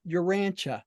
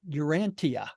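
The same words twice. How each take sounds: First: The ending is said as 'cha'. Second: The ending is said as 'tee-ah'. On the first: The speaker calls it right. "all of these things that ended in T I A were pronounced cha" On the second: The speaker calls it wrong. "Why is it not pronounced Urantia"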